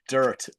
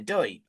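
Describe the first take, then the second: First: It has a standard American r-colored vowel. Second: It has an old Northeast 'oi' vowel, no r. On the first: "We say dirt in most locations on this side of the pond" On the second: "maybe in the Northeast you'll find some uh, Doit"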